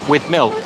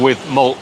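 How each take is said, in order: First: The vowel in milk sounds like 'ih'. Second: The vowel in milk sounds like 'uh'.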